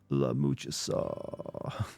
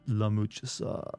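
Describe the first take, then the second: First: It is said in a creaky vocal fry. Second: It is said in a normal voice.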